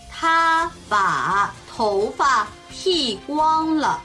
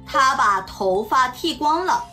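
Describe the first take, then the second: First: It is spoken slowly. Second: It is spoken at a normal pace. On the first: "ゆっくり中国語1 回、" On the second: "中国語1 回、"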